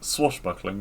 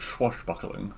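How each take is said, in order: First: The word begins with a plain 's' sound. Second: The word begins with a 'ch' sound. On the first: The speaker calls it right. "it's it's swashbuckling" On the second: The speaker calls it wrong. "not swashbuckling"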